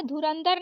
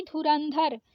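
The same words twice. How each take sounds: First: धुरंधर said as dhurandar, plain d; wrong unaspirated द. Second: धुरंधर with breathed final dhar; correct aspirated ध. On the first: Teacher showing the mistake, धुरंधर with plain final d. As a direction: drop the breath from the later dha in धुरंधर. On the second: Teacher correcting it, धुरंधर with aspirated dh. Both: Shown as a demonstration. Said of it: "धुरंधर नहीं धुरंधर".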